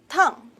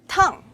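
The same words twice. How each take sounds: No difference in how they are said.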